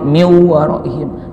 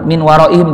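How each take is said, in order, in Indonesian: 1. Bunyi n melebur ke bunyi berikutnya. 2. Bunyi n terdengar jelas.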